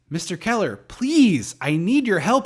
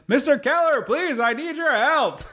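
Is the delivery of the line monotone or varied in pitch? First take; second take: varied; monotone. First: The line is spoken with varied, natural emphasis. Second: The line is spoken with one flat, unchanging inflection. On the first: The speaker calls it right. "the line is" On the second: The speaker calls it wrong. "instead she's just like"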